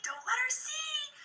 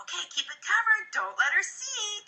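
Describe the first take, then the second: First: Higher, slow, hushed repeat of "Don't let her see"; hushed playful. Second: Playful coaxing. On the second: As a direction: tease the kid along gently. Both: Retold or imitated. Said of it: "be like".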